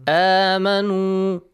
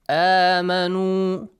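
No difference in how they are said.

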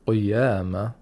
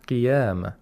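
First: The first vowel is darkened, not a clear 'ee'. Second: The first vowel is a clear 'ee' sound. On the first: The speaker calls it wrong. "قيامة doesn't sound like a kasra" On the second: The speaker calls it right. "We need the E sound"

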